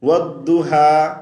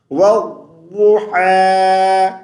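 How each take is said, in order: First: والضحیٰ with the final ح said as ہ; wrong reading. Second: والضحیٰ slow with a clear throaty ح; correct tajweed. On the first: Teacher shows his students the mistaken والضحیٰ. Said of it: "this is wrong". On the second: Teacher shows his students the right والضحیٰ. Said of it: "is right". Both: Shown as a demonstration.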